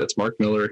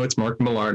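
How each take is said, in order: First: Millar said like "Miller", stress up front; correct surname pronunciation. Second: Millar stressed on the second syllable, "mi-LAR"; mispronounced surname. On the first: Shown as a demonstration. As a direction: say Millar as "MIL-er", with a weak ending. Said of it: "He said his name is Mark Millar". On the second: Retold or imitated. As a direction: say Millar as "muh-LAR", rhyming with car. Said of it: "people out there who are going".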